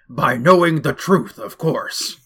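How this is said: It is said in a distinct put-on character voice. The speaker calls it right.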